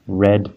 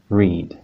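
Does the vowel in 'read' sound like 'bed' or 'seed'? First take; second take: bed; seed. First: The vowel is short, like in 'bed'. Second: The vowel is long, like in 'seed'. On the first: The action happened in the past. "So the past tense" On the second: The verb is in its base form. "come after another verb, then we know that it should be read"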